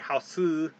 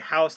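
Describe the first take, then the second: First: It is said with a vowel added at the end. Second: It is said without a vowel at the end.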